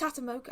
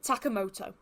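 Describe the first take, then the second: First: The surname is said as Tatamoka. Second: The surname is said as Takamoto. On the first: The speaker calls it wrong. "I get the K and the T mixed up" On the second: The speaker calls it right. "that is how you pronounce his name"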